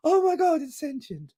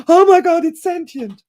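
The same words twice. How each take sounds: First: High, hushed gasp of disbelief; gasping shock. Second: High, loud outburst of alarm; hammed-up shriek of realization; sudden shock. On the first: Retold or imitated. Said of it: "instead of the positive reaction". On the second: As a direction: blurt it out in mock panic. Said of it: "he's having the response of".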